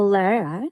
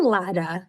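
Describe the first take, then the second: First: The name is said with an English r sound. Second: The name is said with a Portuguese tapped r.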